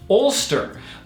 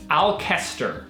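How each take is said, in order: First: The name is said in a shortened form. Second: The name is said as it is spelled. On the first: The speaker calls it right. "it's pronounced Ulster" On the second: The speaker calls it wrong. "we arrived pronouncing it Alcester, because it's spelled like this"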